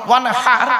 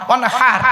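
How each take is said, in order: Both takes have the same delivery.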